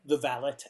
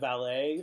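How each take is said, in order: First: The word is said in a British accent. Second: The word is said in an American accent.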